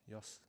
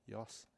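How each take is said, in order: No difference in how they are said.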